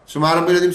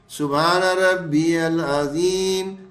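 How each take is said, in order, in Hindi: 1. यह वाक्यांश जल्दी-जल्दी और हड़बड़ी में कहा गया है। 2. यह वाक्यांश धीरे और ध्यान से कहा गया है। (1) "हमारी तो आदत कैसे है" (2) "मैं बहुत स्लो पढ़ रहा हूँ"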